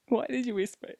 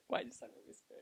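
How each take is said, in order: First: Said in the usual way. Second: Very soft voiceless whisper; barely audible, hushed question. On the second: Real, not acted.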